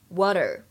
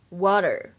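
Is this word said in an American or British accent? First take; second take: American; American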